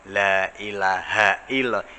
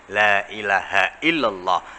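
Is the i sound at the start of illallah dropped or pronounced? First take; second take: dropped; pronounced. First: The i sound of illallah is dropped. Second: The i sound of illallah is clearly pronounced. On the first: The speaker calls it wrong. "Hanya itu kadang-kadang hilang" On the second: The speaker calls it right. "La ilahanya jangan sampai jangan sampai i hilang"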